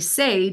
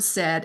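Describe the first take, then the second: First: The vowel is long, like 'sade'. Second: The vowel is short, like 'sed'. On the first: "you say sade and you're like, hmm" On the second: "the word said"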